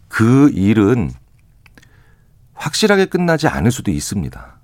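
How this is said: It is said in a firm, clear voice.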